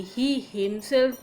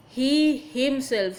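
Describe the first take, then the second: First: Said in the usual way. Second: He drawn out and louder, then himself; stress on He. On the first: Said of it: "particular noun of he". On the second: Shown as a demonstration. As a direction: lean slowly on the word He. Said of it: "here the emphasis, uh, is given".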